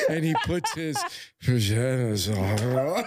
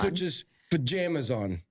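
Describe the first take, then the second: First: It is said in a seductive voice. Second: It is said in a plain voice.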